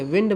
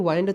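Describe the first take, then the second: First: विंड with a short "i" as in "win"; short-vowel विंड, no "eye" glide; correct pronunciation. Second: वाइंड with a long "eye" vowel; the mistaken "wined" sound in वाइंड; wrong pronunciation. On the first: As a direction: say विंड to rhyme with "pinned". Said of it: "विंड बोलते हो ना". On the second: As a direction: say वाइंड to rhyme with "kind". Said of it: "वाइंड तो नहीं बोलते". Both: Shown as a demonstration.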